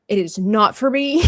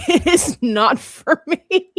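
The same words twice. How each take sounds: First: Said in the usual way. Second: High, loud, drawn-out NOT FOR ME; laughing emphatic refusal. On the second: Retold or imitated. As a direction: stretch "not for me" louder and higher through laughter. Repeats refusal, laughing, more emphatically.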